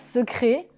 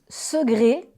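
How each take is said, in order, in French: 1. Le C se prononce comme un K. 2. Le C se prononce comme un G. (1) "et non pas secret" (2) "Le C se prononce quelquefois comme un G, ainsi on prononce segré"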